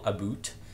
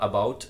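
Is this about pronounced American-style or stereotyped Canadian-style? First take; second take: Canadian; American. First: It has a stereotyped Canadian vowel sound. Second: It has the usual American vowel sound. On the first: "eles falam about" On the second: "em vez de falar about"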